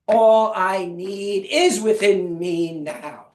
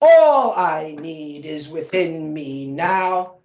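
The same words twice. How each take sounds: First: The stress is on "is". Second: The stress is on "All".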